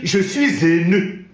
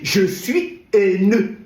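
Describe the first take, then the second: First: A linking sound joins 'suis' to 'haineux'. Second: 'Haineux' is kept apart with no linking sound. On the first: The speaker calls it wrong. "On ne peut pas dire" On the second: The speaker calls it right. "On dit"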